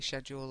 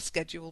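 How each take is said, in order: First: It is said with a British accent. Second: It is said with an American accent.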